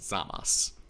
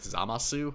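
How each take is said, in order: First: The final su syllable is dropped or silent. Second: The final su syllable is clearly pronounced. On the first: The speaker calls it right. "it's actually supposed to be pronounced" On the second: The speaker calls it wrong. "you're probably more familiar with Zamasu"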